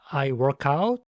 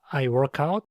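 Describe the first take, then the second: Both takes have the same delivery.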